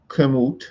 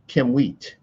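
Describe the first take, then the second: First: The word ends in a short 'moot' sound. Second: The word ends in a drawn-out 'mweet' sound. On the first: "I could say that this is Kim Kimut" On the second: "in English that this is Kimwheat"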